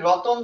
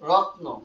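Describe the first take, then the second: First: An o vowel is inserted after the t. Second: The t and n sounds form a cluster.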